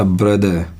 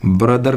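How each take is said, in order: First: "ब्रदर" said as "bruh-duh", no r; r-less "ब्रदर"; correct pronunciation. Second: "ब्रदर" with final r sounded; Indian-style "ब्रदर"; wrong pronunciation. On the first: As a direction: drop the final r in "ब्रदर". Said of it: "नहीं बोला जाता". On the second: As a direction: pronounce the r ending of "ब्रदर". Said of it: "ब्रदर नहीं बोला जाता". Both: Shown as a demonstration.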